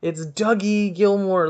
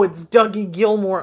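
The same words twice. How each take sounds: First: Loud, high, slow, pleading; slower insistent fan. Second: Loud, high, starstruck; mock fan squeal. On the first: Pretend. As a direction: drag it out, insisting. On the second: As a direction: squeal the name. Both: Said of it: "I could have been like".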